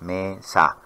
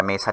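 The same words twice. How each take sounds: First: "mesa" said as two separate beats, me, sa; split into syllables. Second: Said in the usual way. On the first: Shown as a demonstration. Teacher showing students two syllables, "mesa" syllable by syllable. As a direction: break "mesa" after the first syllable. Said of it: "tiene dos sílabas". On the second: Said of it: "la palabra mesa tiene dos sílabas".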